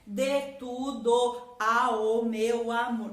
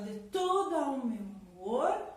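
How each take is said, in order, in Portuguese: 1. As vogais de tudo e ao ficam separadas. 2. As vogais de tudo e ao se misturam. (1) "você não vai falar assim" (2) "você fala"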